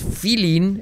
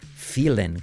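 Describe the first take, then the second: First: The -ing vowel is a tense 'ee' sound. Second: The -ing vowel sounds close to 'e'. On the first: The speaker calls it wrong. "No es feeling" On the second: The speaker calls it right. "es feeling, como desfilen"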